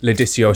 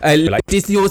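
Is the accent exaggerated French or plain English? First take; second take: plain English; exaggerated French. First: It is said in a plain English accent. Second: It is said in an exaggerated fake French accent. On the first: "So it's not like" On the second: "we put on this French accent when we say it"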